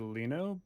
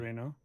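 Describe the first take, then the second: First: The name begins with an L sound. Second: The name begins with an R sound. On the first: This is the name as technically spelled. "I think it's technically Lino" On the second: This is the name as Japanese speakers say it. "in Japanese they can't they don't pronounce L's like that"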